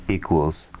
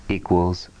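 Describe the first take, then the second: The two takes are said the same way.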